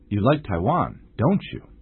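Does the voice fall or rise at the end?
fall. The pitch falls at the end. The speaker assumes the listener likes Taiwan. "老师是用下降的语调"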